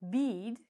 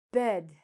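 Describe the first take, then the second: First: "bead" with a long ee; wrong long vowel. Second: "bed" with a short E, set apart; short vowel. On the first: Teacher showing the mistake, "bead" with long ee. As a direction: say "bead" with ee instead of eh. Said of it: "If we said it like this". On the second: Teacher modelling for students, "bed" with short E. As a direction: say "bed" with the eh sound. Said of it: "say it like a short vowel". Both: Shown as a demonstration.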